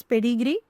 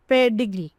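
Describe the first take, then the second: First: Said in the usual way. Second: Pedigree said firmly as three syllables, falling at the end; three-syllable demonstration. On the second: Shown as a demonstration. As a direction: pronounce pedigree louder, as a model word. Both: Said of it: "So three syllables".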